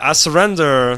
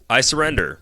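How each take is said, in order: First: It is read in a Borat impression. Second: It is read in his normal voice.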